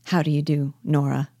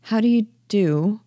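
First: Subdued, timid greeting; understated dejection, falling away at the end; dejected and timid. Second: Higher, questioning greeting with a rising end; hesitant, puzzled lift on the greeting; doubtful. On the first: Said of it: "in a dejected and timid voice". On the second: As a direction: greet someone you can't quite place. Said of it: "Nora, doubtfully". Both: Acted.

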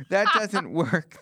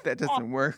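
First: Laughing through the line, drawn out. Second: Said in the usual way. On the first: Acted. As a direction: let the laugh break through slowly. Punchline repeated with laugh.

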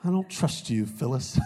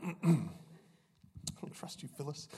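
First: Mock-suspicious sitcom line, pitched up at the start; quoting a sitcom accusation in jest; Office quote. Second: Very soft, voiceless whisper of a sitcom line; hushed, playful aside; whispered quote. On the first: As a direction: deliver a playful TV-comedy quote, falling away on the name. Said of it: "That's an Office reference". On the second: Acted. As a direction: whisper the joke accusation under your breath. Repeats the sitcom quote under breath.

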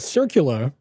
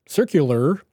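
First: Circular with a dropped final r, Boston accent. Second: Said in the usual way. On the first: Real, not acted. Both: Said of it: "that was my Boston accent coming out".

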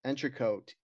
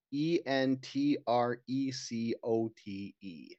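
First: Said in the usual way. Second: E N T R E C O T E spelled slowly, letter by letter; slow letter-by-letter spelling. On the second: Shown as a demonstration. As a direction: spell out E N T R E C O T E one letter at a time.

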